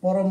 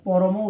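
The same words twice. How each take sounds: First: The word ends on the final consonant sound. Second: The word ends with a final vowel sound. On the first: The speaker calls it wrong. "এখানে পরম বললে ভুল হবে" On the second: The speaker calls it right. "এখানে পরম উচ্চারণ করতে হবে, নাহলে স্বরধ্বনি বা সাউন্ড আসবে না"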